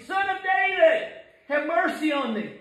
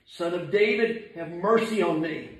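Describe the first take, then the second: First: Very high, straining plea; crying out. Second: Subdued plea. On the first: Blind man begging Jesus to hear, high desperate cry. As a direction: call out desperately at the top of the range. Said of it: "cried the more". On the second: Believer praying as the lost man did, subdued plea. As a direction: plead humbly, letting it fall softly. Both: Acted.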